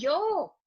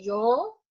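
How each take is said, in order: First: The long vowel sounds eager and enthusiastic. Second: The long vowel sounds surprised and disbelieving. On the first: The speaker is eagerly volunteering. "aquí también yo, pero no es igual" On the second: The speaker can hardly believe the news. "vas a ser la nueva directora de departamento, yo, entonces se alarga"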